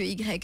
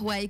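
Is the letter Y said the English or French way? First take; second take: French; English. First: The letter is said the French way, 'i grec'. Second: The letter is said the English way, 'why'. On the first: The speaker calls it wrong. "que Y" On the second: The speaker calls it right. "plus intéressant de dire Y"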